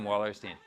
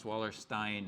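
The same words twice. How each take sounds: First: Wallerstein with the last syllable said like "steen"; anglicized pronunciation. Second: Wallerstein with the last syllable said like "stine"; correct German pronunciation. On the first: Lecturer to class, admits accent, Wallerstein ending in "-steen". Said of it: "we have a bad accent too". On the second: Lecturer to students, Wallerstein ending in "-stine". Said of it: "it should be pronounced Wallerstein". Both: Shown as a demonstration.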